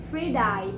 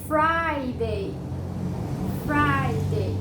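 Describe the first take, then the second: First: "Friday" wrongly as free-DIE; mispronunciation. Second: "Friday" as FRY-day, first syllable loud and long; correct pronunciation. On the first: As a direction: say "Friday" with EE first and EYE last. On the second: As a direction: hit FRY hard in "Friday", then day. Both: Shown as a demonstration. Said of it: "Não falem mais Friday".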